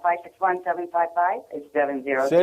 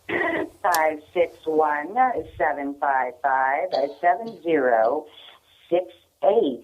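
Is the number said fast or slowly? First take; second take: fast; slowly. First: The number is said fast. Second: The number is said slowly.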